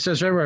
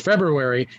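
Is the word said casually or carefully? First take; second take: casually; carefully. First: The word is said in the common casual way. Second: The word is said in a careful, full way. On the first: The speaker calls it wrong. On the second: The speaker calls it right.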